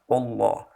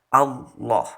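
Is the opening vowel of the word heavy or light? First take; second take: heavy; light. First: The opening vowel sounds heavy and dark. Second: The opening vowel sounds light and thin. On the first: The speaker calls it wrong. "alifnya ikut ditebalkan" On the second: The speaker calls it right. "Yang lebih benar"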